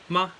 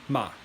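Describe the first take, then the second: First: The pitch is short and unmarked. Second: The pitch falls sharply downward. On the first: "ma means neutral tone" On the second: "and then the fourth tone, ma"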